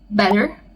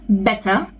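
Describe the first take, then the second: First: The middle T sounds like a soft D. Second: The middle T is a clear T. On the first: "In American, ... pronounced as a soft D" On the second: "if it's British, then you have to say a clear T"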